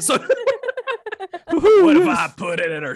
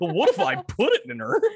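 First: It is said with a southern drawl. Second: It is said in a goofy cartoon voice. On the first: "Is it more southern?" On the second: "that's Goofy. Gorsh"

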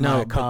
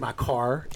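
First: It sounds like a typical English accent. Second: It sounds closer to an American accent. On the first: "as opposed to" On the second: "places that sound even closer, actually. They'll say"

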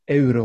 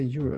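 First: Euro is pronounced the Swedish way. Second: Euro is pronounced the English way. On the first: The speaker uses the native form. "which would be more natural for Sweden" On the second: The speaker borrows the English form. "people have a tendency of anglifying things"

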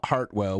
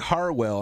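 First: The name is said with a T sound. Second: The name is said without a T sound. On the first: The speaker calls it wrong. "not Hartwell" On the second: The speaker calls it right. "no T in it"

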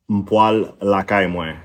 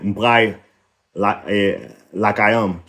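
First: It is said in the non-northern, usual form. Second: It is said in the northern dialect form.

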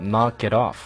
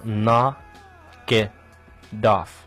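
First: It is said at normal speed. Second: It is said slowly.

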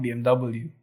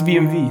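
First: The last letter is said as 'double-u'. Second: The last letter is said as 'vee'. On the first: The speaker calls it wrong. "BMW is not BMW" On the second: The speaker calls it right. "Germans pronounce W as V"

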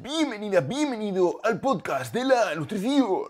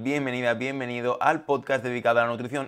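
First: He speaks in an unusual, put-on voice. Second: He speaks in his normal everyday voice.

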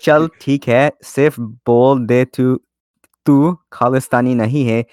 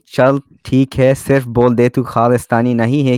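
First: It is read slowly and deliberately. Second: It is read at a normal, quicker pace.

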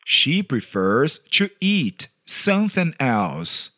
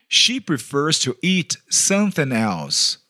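The two takes are said the same way.

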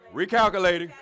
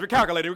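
First: It is said at a slower pace. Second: It is said at a fast pace.

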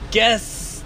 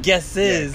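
First: The word is said as one syllable. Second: The word is said as two syllables. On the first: The speaker calls it right. "it's guess" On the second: The speaker calls it wrong. "not guesses"

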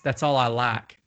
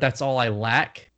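First: It is said in a Southern accent. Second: It is said in a standard, non-Southern accent.

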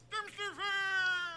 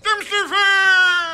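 First: It is said weakly, with little energy. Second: It is said loudly, with much energy.

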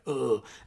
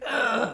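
First: Goldar's voice sounds dark and sinister. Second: Goldar's voice sounds silly and goofy.

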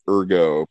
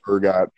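First: The word ends without a t sound. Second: The word ends with a t sound. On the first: The speaker calls it wrong. "I want to call it ergo, but that's not the pronunciation" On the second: The speaker calls it right. "It's ergot"

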